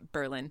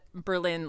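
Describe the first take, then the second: First: The stress falls on the first syllable. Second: The stress falls on the second syllable. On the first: It is the Connecticut town. The speaker calls it right. "It's Berlin" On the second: It is the German city. The speaker calls it wrong. "we do not call it Berlin like Germany"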